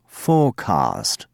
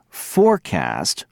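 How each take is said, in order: First: Forecast as fohcahst, lower, slow, r dropped; British forecast. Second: Forecast with a clear r and a flat a, said slowly; American forecast. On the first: Teacher replaying the contrast for students, British forecast. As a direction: drop the r in forecast, long ah. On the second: Teacher replaying the contrast for students, American Forecast. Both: Shown as a demonstration. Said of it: "Listen again".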